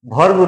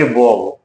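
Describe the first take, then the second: First: The r sound is clearly pronounced. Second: The r sound is silent. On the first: The speaker calls it wrong. "वर्ब वर्ब नहीं बोलेंगे" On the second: The speaker calls it right. "इसको कहेंगे वर्ब ... आर को silent कर देंगे"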